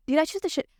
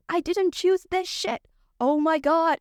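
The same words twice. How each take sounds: First: Higher-pitched indignant question; exasperated question. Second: High, slow, emphatic denial; indignant protest. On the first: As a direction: ask it in disbelief at the unfairness. Rants about her chronic illness. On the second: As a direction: drag out each word in exasperation. Answers own question about her illness. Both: Real, not acted.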